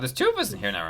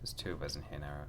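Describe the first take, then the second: First: It is shouted loudly and urgently. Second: It is said at a calm, normal volume. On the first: The speaker calls it right. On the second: The speaker calls it wrong.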